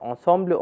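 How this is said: The word is pronounced the French way.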